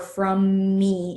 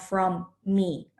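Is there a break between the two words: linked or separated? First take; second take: linked; separated. First: The two words run together without a break. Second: The two words are split by a short break. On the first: The speaker calls it right. "connect the words that um, you should not pause between" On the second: The speaker calls it wrong. "it's not from me"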